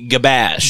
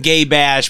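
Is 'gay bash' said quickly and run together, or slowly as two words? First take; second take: quick; slow. First: It is said quickly, blurred into one word. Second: It is said slowly as two separate words.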